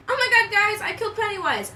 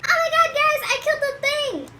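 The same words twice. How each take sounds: First: A higher, lighter redo of Richie's cheer; mock-thrilled friend, raised pitch; imitating Richie. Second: High, loud excited squeal of Richie; imitating Richie. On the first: Richie telling friends he killed Pennywise, lightly raised. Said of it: "I almost said Demogorgon". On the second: Richie celebrating to his friends, high and loud. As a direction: gush it out way up high like a thrilled kid. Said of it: "he's like".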